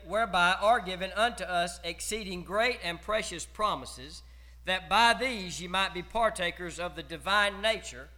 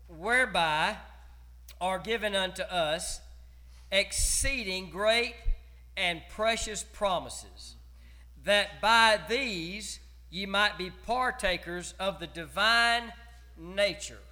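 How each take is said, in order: First: It is read at a normal, quicker pace. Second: It is read a little more slowly.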